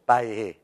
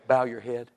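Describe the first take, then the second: First: "Bow your head" squashed into one syllable in Cajun; Cajun accent. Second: Said in the usual way. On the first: Shown as a demonstration. Showing how Cajuns call to prayer, in a squashed Cajun accent. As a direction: slur the three words together like a Cajun. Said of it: "It's all like one syllable".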